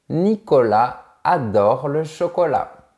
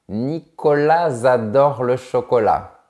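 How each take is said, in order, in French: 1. Le s de Nicolas ne se lie pas à adore. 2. Le s de Nicolas se lie à adore. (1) "On dit" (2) "on ne dit pas"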